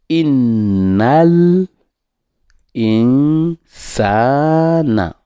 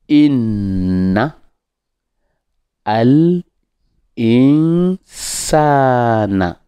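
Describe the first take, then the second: First: The words run together without a break. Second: The words are split into separate parts. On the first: "si on veut faire la liaison" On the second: "Quand on décompose"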